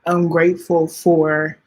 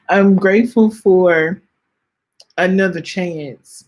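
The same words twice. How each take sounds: First: Said in the usual way. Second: "I'm grateful for" pushed out louder, voice welling up; near tears. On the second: Real, not acted. Host thanking for another year, fighting real tears. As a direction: push through the swell of tears. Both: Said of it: "I am about to cry".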